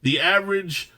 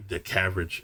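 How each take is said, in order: First: "The average" said clearly, higher and firmer; correcting "average" with a jokey emphatic lift; emphatic correction. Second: "caverage" blurted as a tongue-slip for average; the botched "caverage" mumbled low; garbled slip. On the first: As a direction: fix the word with a pointed higher pitch. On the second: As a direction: stumble into "caverage", half swallowed and softer. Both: Real, not acted. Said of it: "yeah, I can speak".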